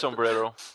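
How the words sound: The word is said with an American accent. The speaker calls it wrong.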